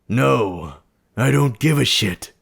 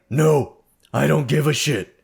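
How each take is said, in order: First: It is said in a gruff put-on monster voice. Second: It is said in the speaker's normal voice.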